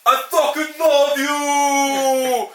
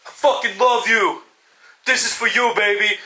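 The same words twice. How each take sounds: First: Very slow, high, drawn-out battle yell; hammed-up shout. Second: Mock tender. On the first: Boxer yelling as he charges his punch, hammed-up shout. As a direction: roar it as the big comeback punch lands. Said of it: "the guy will be like". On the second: Boxer on the canvas to his daughter, mock tender. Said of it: "his daughter and be like".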